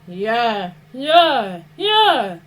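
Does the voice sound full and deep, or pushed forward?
full. The voice sounds full, with depth from the throat. The speaker calls it right. "as if you're speaking to an audience in front of you and behind you"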